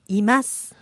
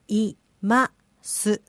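First: It is said quickly as one word. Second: It is said slowly, syllable by syllable.

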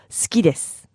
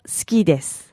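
The two takes are said the same way.

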